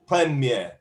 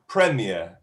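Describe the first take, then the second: First: Both syllables get equal weight, French style. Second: It is said with the British English stress pattern. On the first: "in French, ... syllables are equal weighting" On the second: "British English"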